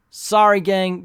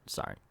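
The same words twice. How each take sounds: First: Bright, loud apology; loud sorry. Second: Softly mumbled apology; quiet sorry. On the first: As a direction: call out sorry cheerfully. Playful apology to viewers. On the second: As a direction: murmur sorry almost to yourself. Sheepish aside apology. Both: Real, not acted.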